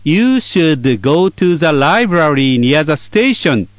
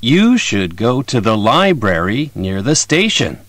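First: You should go to the library near the station, every word even and slow; flat, no stress. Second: You should go to the library near the station with go, library, station strong and should, to, the, near weak; natural sentence stress. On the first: Teacher shows the flat, unstressed version. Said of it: "フラットに言うと". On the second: Teacher contrasts the stressed version with the flat one. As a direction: stress the content words, reduce the rest. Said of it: "アクセントをつけてわかりやすく言うと". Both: Shown as a demonstration.

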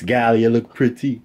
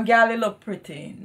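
First: Slow, put-on Jamaican "Gal, you look pretty"; son's patois attempt. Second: "Gal, you look pretty" with Jamaican "Gal" and lilt; patois correction. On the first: Son copying mom in a mock Jamaican accent. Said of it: "That makes more sense". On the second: Shown as a demonstration. Mother models the right word, Jamaican accent.

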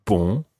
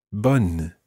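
First: BON with a nasal vowel, N left silent. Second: BONNE with an open vowel and a full N; sounded N. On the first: Teacher contrasting these two words, nasal ending. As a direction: end BON in the nose without closing the N. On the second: Teacher contrasting these two words, sounded N. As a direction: close BONNE firmly on a held N. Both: Shown as a demonstration. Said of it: "Listen to the difference between these two words".

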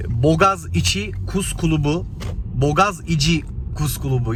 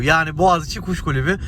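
First: "Bogaz içi Kus Kulubu" with hard g, plain s and u; without Turkish letters. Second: Said in the usual way. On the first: Shown as a demonstration. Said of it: "Türkçe karakterleri çıkarınca biraz zor söyleniyor". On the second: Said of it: "Türkçe karakterleri çıkarınca".

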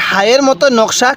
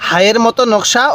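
Both takes have the same delivery.

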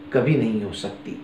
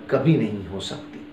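The two takes are said the same way.

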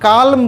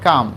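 First: কালম with the L sounded, the mistake to avoid; কালম with a spoken L, shown as the wrong way; wrong pronunciation. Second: কাম with a silent L; কাম as the teacher's model with the L silent; correct pronunciation. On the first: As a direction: say কালম pronouncing the L clearly. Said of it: "কালম বলে দিও না". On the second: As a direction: say কাম with no L sound at all. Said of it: "এটা কাম হয়". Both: Shown as a demonstration.

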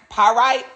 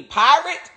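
First: "Pyrite" sounded like puh-RITE, higher than usual; trying another pronunciation. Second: "Pyrite" sounded like PIE-rit, questioning and high; trying a pronunciation. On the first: Speaker puzzling over the word, "Pyrite" tried as puh-RITE. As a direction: say "Pyrite" with a long "rite" ending. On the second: Speaker puzzling over the word, "Pyrite" tried as PIE-rit. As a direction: say "Pyrite" with a short final "rit". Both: Real, not acted. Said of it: "What's this word?".

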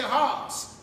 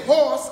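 First: "horse" drawn out slowly in a Southern accent, close to "hawss"; Southern twang. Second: Said in the usual way. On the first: Shown as a demonstration. Preacher showing the congregation the Southern way of saying "horse". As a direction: say "horse" like a Southern speaker, slow and broad. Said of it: "We may say horse up here". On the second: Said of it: "They may say horse".

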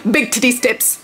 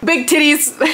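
First: Said in the usual way. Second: "Big titties" squealed high and bright; playful high squeal. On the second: Pretend. Jokey shout-out of a product.

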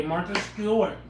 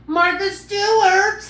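First: Lightly put-on host voice, falling; Martha Stewart voice. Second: High, loud, drawn-out slow announcement of the name; show-host call. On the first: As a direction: say the name like a TV host. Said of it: "My name's Martha today". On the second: Pretend. Host hyping her cooking persona to viewers, high slow loud call. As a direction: belt it like a TV host introducing the star.

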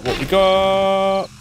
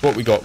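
First: "What we got?" drawn out slowly and high; sing-song stretch. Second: Said in the usual way. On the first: Pretend. Slow stretched repeat, higher.

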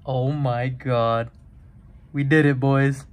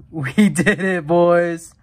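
First: Thrilled cheer; excited. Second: Laughing, louder cheer; real victory yell; excited shout. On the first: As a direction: celebrate the big pull. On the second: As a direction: yell it out in triumph. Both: Real, not acted. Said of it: "I'm literally breathless".

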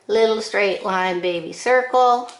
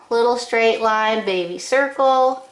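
Both takes have the same delivery.

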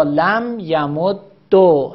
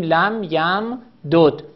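First: یمد دو slowly as ya-mud-do; doubled d in یمد دو, ending on long o; لم یمد دو, drawn out with final damma; merged with damma. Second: یم دود slowly as yam-dud, two separate d sounds; لم یم دود, measured, without doubling; unmerged form. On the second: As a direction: split it into یم دود, closing on d. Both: Shown as a demonstration.

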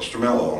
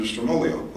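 First: Stromello said with an "-ello" ending; attempted corrected pronunciation. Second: Stromolio said with an "-olio" ending; mispronounced surname. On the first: Questioner correcting himself on the family name, Stromello with "-ello". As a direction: end Stromello in "ello", like "mellow". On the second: Questioner naming the property owner, Stromolio mispronounced with "-olio". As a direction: end Stromolio in "olio", as in folio. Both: Real, not acted. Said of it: "I don't mean to pronounce it wrong".

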